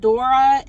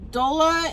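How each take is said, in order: First: The name is said with an R sound. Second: The name is said with an L sound. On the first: This is the Japanese version of the name. "in the Japanese version" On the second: This is the English version of the name. "in the English version"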